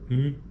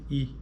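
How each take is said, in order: First: The vowel is nasal, with air through the nose. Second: The vowel is oral, with air only through the mouth.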